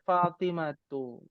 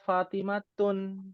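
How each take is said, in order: First: The word ends on a vowel without n. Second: The word ends with an added n sound. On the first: The speaker calls it right. "Dibaca Fatimatu" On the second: The speaker calls it wrong. "Dia tidak dibaca Fatimatun"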